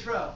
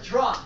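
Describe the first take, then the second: First: The word ends in a vowel, with no f. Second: The word ends in an f sound. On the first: The speaker calls it wrong. "Don't say tro" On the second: The speaker calls it right. "It's called trough"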